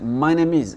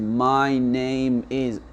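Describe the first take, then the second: First: The words run smoothly together without breaks. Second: Each word is said separately and distinctly. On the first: The speaker calls it right. "ils découpent pas les mots comme ça" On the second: The speaker calls it wrong. "ce qu'on a appris"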